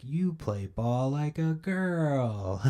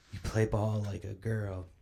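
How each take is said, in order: First: Put-on slow, high whispered kid taunt; Sandlot taunt. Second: Sandlot taunt. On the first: Vlogger mocking The Sandlot, slow whispered jeer. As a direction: whisper it out slowly like a playground jeer. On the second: Retold or imitated. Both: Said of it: "fucking The Sandlot?".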